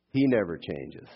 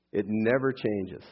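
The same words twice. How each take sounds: First: "He" made the strongest word; weight on the opening "He", falling ending; stress on He. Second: "never" leaned on, slow delivery; slowly, with the weight on "never"; stress on never. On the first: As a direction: lean on "He", then let the rest fall. Same line, subject swapped for emphasis. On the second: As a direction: make "never" the strongest word, unhurried. Restating the truth, key word shifted. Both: Real, not acted.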